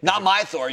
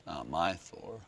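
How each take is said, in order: First: Higher, forceful fan objection; emphatic mock protest. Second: Low, soft grumble; muttered mock protest. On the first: Comic fan disowning the new Thor, emphatic. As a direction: announce it loudly, playing the outraged fan. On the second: Comic fan disowning the new Thor, muttered. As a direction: mutter it under your breath as a sulky fan.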